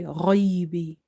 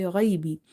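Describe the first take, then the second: First: Ghaibi with the ai made heavy too; strict heavy ghaibi throughout. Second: Ghaibi heavy gh then light ai; light gentle ai in ghaibi. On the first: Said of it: "We can't read it with the strictness". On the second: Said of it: "which we read gentle". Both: Shown as a demonstration.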